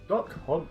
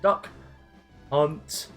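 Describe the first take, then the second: First: The two words run together without a pause. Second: A long pause separates the two words.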